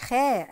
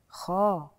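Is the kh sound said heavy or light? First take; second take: light; heavy. First: The kh sound is thin and light. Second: The kh sound is full and heavy. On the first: The speaker calls it wrong. "ما يبقاش خاء ابدا" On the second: The speaker calls it right. "فده حرف فخ"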